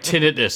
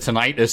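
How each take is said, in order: First: It is pronounced the ordinary, everyday way. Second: It is pronounced like a Greek god's name. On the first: The speaker calls it right. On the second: The speaker calls it wrong. "I keep pronouncing like it's a Greek god"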